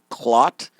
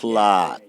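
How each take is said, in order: First: The vowel is short and clipped. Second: The vowel is long and drawn out. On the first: It is not the bad word. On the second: It is the bad word.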